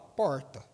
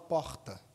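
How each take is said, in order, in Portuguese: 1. O R soa diferente da fala de Belo Horizonte. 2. O R soa como a fala de Belo Horizonte. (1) "eu falava porta ... você fala um R meio estranho" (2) "Belo Horizonte fala porta"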